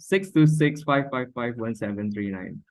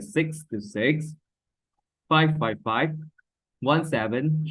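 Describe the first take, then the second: First: The digits run together without pauses between groups. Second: The digits are grouped with short pauses between groups. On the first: The speaker calls it wrong. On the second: The speaker calls it right. "There is a pause"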